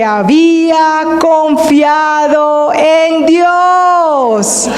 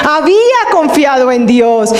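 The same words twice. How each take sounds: First: Proclamando. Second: Said in the usual way. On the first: Acted. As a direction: cry it out like a preacher's climax. El predicador clama la frase. (gritando despacio, más agudo)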